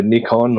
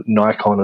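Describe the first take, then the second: First: "Nikon" as NICK-on, short i; short-i pronunciation. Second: "Nikon" as NYE-kon, long i; alternative pronunciation. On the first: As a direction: say "Nikon" with first syllable like "nick". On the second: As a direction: say "Nikon" with first syllable rhyming with "eye". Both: Shown as a demonstration. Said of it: "as some will pronounce it".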